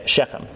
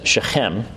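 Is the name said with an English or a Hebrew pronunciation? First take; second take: English; Hebrew. First: The name is said with an English pronunciation. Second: The name is said with a Hebrew pronunciation. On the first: The speaker calls it wrong. "we mispronounce things in Hebrew all the time" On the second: The speaker calls it right. "in Hebrew, you're supposed to pronounce that as Shechem"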